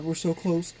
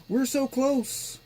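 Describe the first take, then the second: First: Said in the usual way. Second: Higher and slower, with "so" drawn out; excited. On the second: Real, not acted. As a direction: stretch "so" high and eager. Repeated as boot nears.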